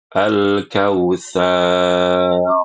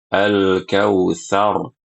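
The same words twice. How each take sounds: First: The end of the word is drawn out. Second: The end of the word is cut short. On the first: The speaker calls it wrong. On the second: The speaker calls it right.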